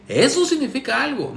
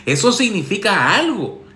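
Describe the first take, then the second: First: Eso significa algo. jumps high with mock wonder; hammed-up sarcastic repeat, pitch way up on Eso; mock amazement. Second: Eso significa algo. said flat and knowing; sarcastic first take of Eso significa algo. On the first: Mocking Alex about his ex's photos, high mock awe. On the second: Sarcastic advice columnist to Alex, knowing. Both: Shown as a demonstration. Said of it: "Soy muy sarcástico".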